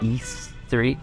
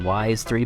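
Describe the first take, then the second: First: The first word sounds like 'ease'. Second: The first word sounds like 'wise'. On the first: The speaker calls it right. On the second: The speaker calls it wrong.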